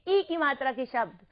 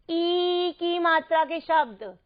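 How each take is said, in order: First: First vowel ई said short, as इ. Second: Opening ई held long and slow. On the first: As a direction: keep the opening ई brief and unstressed. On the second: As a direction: stretch the first ई well out. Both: Shown as a demonstration. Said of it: "अंतर समझना".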